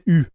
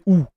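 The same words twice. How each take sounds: First: The vowel is the French rounded front sound. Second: The vowel is the English 'you' sound. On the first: The speaker calls it right. "you guys don't say U" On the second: The speaker calls it wrong. "you say U"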